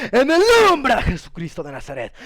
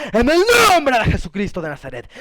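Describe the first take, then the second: The two takes are said the same way.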